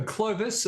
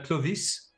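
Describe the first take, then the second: First: "Clovis" said the English way, KLOH-viss; anglicised "Clovis", KLOH-viss; English pronunciation. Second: "Clovis" said the French way, kloh-VEES; French-style "Clovis", kloh-VEES; French pronunciation. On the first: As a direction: say "Clovis" higher, with a short final "iss". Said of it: "I also need help with my pronunciation". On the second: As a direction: say "Clovis" with a long final "ees". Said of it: "my French accent isn't perfect". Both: Shown as a demonstration.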